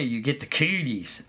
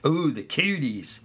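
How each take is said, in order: First: Said in the usual way. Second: A mock-scared ooh, the cooties; hammed-up shudder at cooties; mock horror. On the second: Shown as a demonstration. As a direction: tease the kids with fake dread. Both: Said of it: "stay away".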